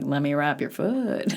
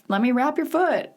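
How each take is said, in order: First: It is said in a flirty, suggestive tone. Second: It is said in a plain, matter-of-fact tone. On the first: The helper is showing romantic interest. "it didn't seem like" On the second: The helper is just being practical. "I didn't feel like any of it was flirty"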